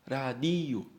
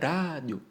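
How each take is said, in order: First: The stress is on the second-to-last syllable. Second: The stress is not on the second-to-last syllable. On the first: The speaker calls it right. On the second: The speaker calls it wrong.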